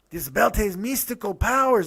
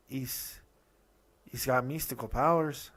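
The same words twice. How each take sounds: First: Loud, higher mock Mexican accent; hammed-up go-to Mexican accent; bad Mexican accent. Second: Hesitant, toned-down mock Mexican accent; half-hearted attempt at a Mexican accent; second-try Mexican accent. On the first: Podcaster imitating Dario about a belt, bad Mexican accent. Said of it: "that was my go-to Mexican voice". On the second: Podcaster retrying Dario's line, hesitant mock Mexican accent. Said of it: "No, that's even worse".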